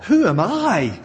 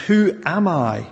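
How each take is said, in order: First: Who am I? with I lifted high and leaned on; stress on I. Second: Said in the usual way. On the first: Shown as a demonstration. Preacher showing Moses' doubt, I stressed. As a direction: hit the word I hard, a little louder. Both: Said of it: "The focus is here is on the word I".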